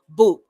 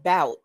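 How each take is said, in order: First: The vowel sounds like the one in 'food'. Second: The vowel sounds like the one in 'out'. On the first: "the phonetic pronunciation uh, to be boot" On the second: "some people would think it's pronounced bout, but it's not"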